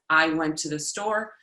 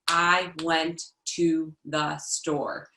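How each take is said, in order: First: It is said smoothly at a normal pace. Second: It is said slowly, one word at a time.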